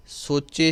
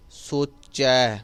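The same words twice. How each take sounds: First: ਸੋਚੇ ending in a plain "e"; wrong e ending. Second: ਸੋਚੈ slowly, ending in open "ai"; correct ai ending. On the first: Teacher showing what not to say, e ending. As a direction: say ਸੋਚੇ with closed e at the end. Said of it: "ਸੋਚੇ ਸ਼ਬਦ ਨਹੀਂ ਕਹਿਣਾ". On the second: Teacher modelling the right word, open ai ending. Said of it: "ਚੱਚੇ ਨੂੰ ਦੁਲਾਵਾਂ ਲੱਗੀਆਂ ਹੋਈਆਂ ਹੈ". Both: Shown as a demonstration.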